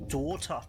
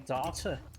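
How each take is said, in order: First: The R sound is not drawn out. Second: The R sound is drawn out long.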